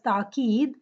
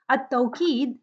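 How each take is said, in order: First: "taqeed" without the w glide; "taqeed", no aw diphthong; alternative pronunciation. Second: "At-tawqeed" with an aw diphthong; "At-tawqeed", first vowel gliding as aw; usual pronunciation. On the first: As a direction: say "taqeed" with a plain a in the first syllable. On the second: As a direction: say "At-tawqeed" with a w glide before the long ee. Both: Shown as a demonstration. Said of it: "is also pronounced as taqeed".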